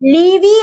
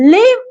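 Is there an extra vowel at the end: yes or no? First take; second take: yes; no. First: An extra vowel sound follows the final v. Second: The word ends on the v with no vowel. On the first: The speaker calls it wrong. "ലീവി എന്ന് പറയുന്നില്ല" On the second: The speaker calls it right. "live എന്നേ നമ്മൾ പറയുന്നുള്ളൂ"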